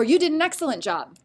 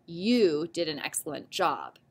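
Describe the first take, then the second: First: Said in the usual way. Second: "You did an excellent job." said lower and softer, falling at the end; low, settled statement; flat statement. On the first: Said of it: "the answer ends with a period". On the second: Shown as a demonstration. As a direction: state it calmly, dropping at the end. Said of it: "because we are making a statement".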